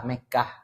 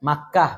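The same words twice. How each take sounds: First: Mekah with e and single k, the Indonesian way; Mekah, the softened local form. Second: Makkah with Arabic a vowels and doubled k; Makkah, the original Arabic form; Arabic pronunciation. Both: Shown as a demonstration. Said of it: "dalam bahasa Indonesia itu dilembutkan".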